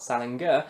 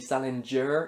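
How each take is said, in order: First: The middle consonant is a hard g sound. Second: The middle consonant is a soft j sound. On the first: The speaker calls it wrong. "not a g sound" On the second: The speaker calls it right. "It's supposed to be with a j sound"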